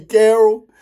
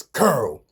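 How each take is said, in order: First: "Carol" with a "care" first syllable; standard pronunciation. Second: "Curl" for Carol, one syllable; Baltimore pronunciation. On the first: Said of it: "it say Carol". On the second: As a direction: say "Curl", rhyming with girl. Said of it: "but in Baltimore". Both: Shown as a demonstration.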